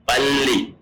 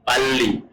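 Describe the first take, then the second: The two takes are said the same way.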